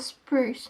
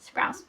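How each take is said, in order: First: The vowel sounds like the one in loose. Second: The vowel sounds like the one in house. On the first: The speaker calls it wrong. "or spruce, not spruce" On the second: The speaker calls it right. "Sounds like sprouts"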